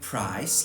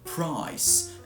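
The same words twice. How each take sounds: First: The vowel starts at the front, received pronunciation style. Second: The vowel starts further back, southeast English style. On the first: "like you do in received pronunciation" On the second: "and like you kind of do in mine"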